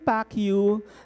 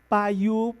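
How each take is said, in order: First: The first word ends with a clear k sound. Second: The first word ends without any k sound. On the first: The speaker calls it wrong. "So I thought it's pronounced as pak" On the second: The speaker calls it right. "it's silent K. It should be Pa"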